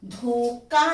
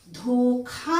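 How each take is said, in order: First: "धोखा" as dhoka, unaspirated k; wrong consonant. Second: "धोखा" with a breathed-out kh; correct aspiration. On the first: Teacher showing the error, "धोखा" without kh breath. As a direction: say "धोखा" with a plain k. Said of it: "धोखा नहीं होता है". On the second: Teacher correcting students, "धोखा" with aspirated kh. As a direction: hold dho, then puff the kha of "धोखा". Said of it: "धोखा होता है". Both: Shown as a demonstration.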